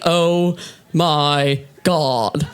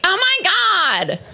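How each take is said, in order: First: Low, very slow, unexcited drone; deadpan freak-out. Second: High, drawn-out hysterical squeal; mock freak-out. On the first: Retold or imitated. Comic freaking out in her own voice, deadpan. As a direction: spell out the shock slowly with no excitement. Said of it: "I freak out. I'm like". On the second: Other women freaking out, mock hysterical. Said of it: "Other bitches freak out".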